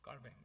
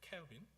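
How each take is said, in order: First: The name is said the French way, 'Calvin'. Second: The name is said the English way, 'Calvin'. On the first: The speaker calls it right. "프랑스 발음으로" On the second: The speaker calls it wrong. "영어식으로"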